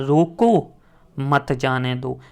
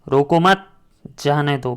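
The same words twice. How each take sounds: First: There is a pause right after 'roko'. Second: There is a pause right after 'mat'. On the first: Stop him; do not let him leave. "पहले उससे कह रहे हैं कि उसको रोक लो, फिर उससे कह रहे हैं मत जाने दो" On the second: Do not stop him; let him leave. "इधर अगर हम इसको लगा दें विराम चिन्ह, रोको मत"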